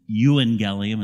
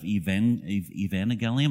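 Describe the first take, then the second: First: The word is said without a V sound. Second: The word is said with a V sound. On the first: The speaker calls it right. "There's no V sound in Greek, and so that's why you pronounce it euangelium" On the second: The speaker calls it wrong. "instead of evangelium"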